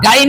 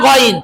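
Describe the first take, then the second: First: The first vowel is an open 'aa' sound. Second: The first vowel is a rounded 'o' sound. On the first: The speaker calls it wrong. "অনেকে কিন্তু গাইন বলেন, এটা কিন্তু ভুলে যেতে হবে" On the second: The speaker calls it right. "গাইন না গইন"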